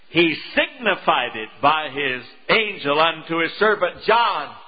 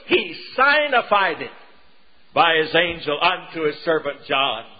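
First: Signified starts with a short 'sig' sound. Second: Signified starts with the word 'sign'. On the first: The speaker calls it wrong. "But we change it to signified it" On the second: The speaker calls it right. "If we pronounce it as it actually is put together"

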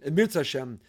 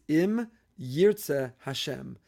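First: It is said quickly with a Yiddish-style pronunciation. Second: It is said carefully with every word fully pronounced. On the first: This is how it is usually said in everyday speech. "We say it really quickly. We say it in the Yiddishized version" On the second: This is what the words really are. "But really it's"

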